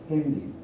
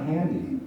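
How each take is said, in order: First: "Handy" with a German e-like vowel, like "hendy"; German pronunciation. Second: "handy" with an open English a; English pronunciation. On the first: Lecturer showing the borrowed phone word, "Handy" in German pronunciation. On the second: Lecturer contrasting the word for audience, "handy" in English pronunciation. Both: Shown as a demonstration. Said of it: "adapted to the German pronunciation".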